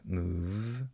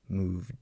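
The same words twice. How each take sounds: First: "Move" with the v sustained; held v sound. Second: "Moved" cut off on a held-back d; moved with unreleased d; stopped final d. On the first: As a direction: hold the v at the end of "Move". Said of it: "I can hold the V sound". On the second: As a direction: stop "Moved" on the d without releasing air. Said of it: "I'm stopping on a D sound". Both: Shown as a demonstration.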